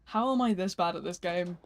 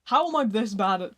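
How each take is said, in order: First: Said in the usual way. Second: Louder, exasperated repeat. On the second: Real, not acted. Streamer failing at the game, exasperated. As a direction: punch it out in frustration.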